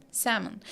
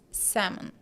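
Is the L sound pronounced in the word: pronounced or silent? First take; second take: silent; silent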